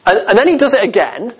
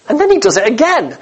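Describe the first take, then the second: First: Said in the usual way. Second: Same words again, pitched higher with disbelief; incredulous repeat. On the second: Shown as a demonstration. Preacher to congregation, marvelling at the wasted water, incredulous and higher. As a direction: lift it up in growing amazement.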